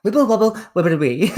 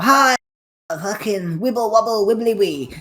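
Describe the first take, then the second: First: "Wibble wobble wibbly wee" with w for r; mocking Jonathan Ross, w for r; says w for r. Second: Mock Jonathan Ross lisp, "wibble wobble" with w for r; says w for r. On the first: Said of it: "Bo Select where it's like". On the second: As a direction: imitate Jonathan Ross saying w for r. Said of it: "'cause he can't pronounce his R's".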